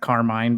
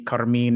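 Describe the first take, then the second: First: The name is pronounced the English way. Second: The name is pronounced the Italian way. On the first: "instead of Carmine" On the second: "the Italian pronunciation of your name"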